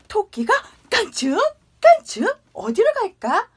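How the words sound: It is read with lively, expressive feeling.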